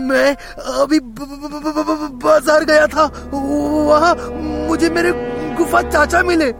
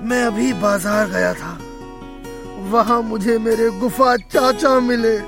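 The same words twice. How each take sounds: First: The voice sounds cheerful and bright. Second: The voice sounds sad and low. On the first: The speaker is happy. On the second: The speaker is unhappy.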